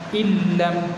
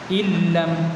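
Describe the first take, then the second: Both takes have the same delivery.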